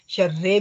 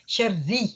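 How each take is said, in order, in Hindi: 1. यह शब्द e स्वर पर खत्म होता है। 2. यह शब्द साफ़ i स्वर पर खत्म होता है। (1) "शर्रे भी नहीं है" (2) "जब आप शर्री कहेंगी ना तो आपकी खूबसूरत हो जाएगी तजवीद"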